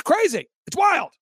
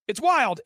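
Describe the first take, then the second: First: High, louder burst on wild; amazed exclamation. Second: Said in the usual way. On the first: Real, not acted. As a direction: blurt it out in amazement. Marvelling at own event's lineup.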